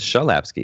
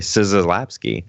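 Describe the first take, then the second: First: The name is said with a Polish pronunciation. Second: The name is said with a non-Polish pronunciation. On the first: The speaker calls it right. "much more correct to Polish" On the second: The speaker calls it wrong. "which is obviously incorrect"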